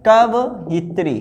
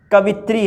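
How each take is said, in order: First: कवइत्री slowly split as kav-it-ri; correct form. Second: कवित्री in three syllables, ka-vit-ri; wrong form. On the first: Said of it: "कवइत्री होता है". (कवइत्री को धीरे, कव-इत्री तोड़कर) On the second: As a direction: merge the vowels in कवित्री. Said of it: "लेकिन ये गलत है". (कवित्री, बिना अलग इ के) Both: Shown as a demonstration.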